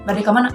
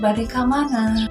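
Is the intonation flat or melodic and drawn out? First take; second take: flat; melodic. First: The phrase is said flat, with no melody. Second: The phrase is said with long, melodic intonation. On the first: "teu jelas ... teu aya intonasina" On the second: "mendayu-dayu ... Panjang gitu intonasina"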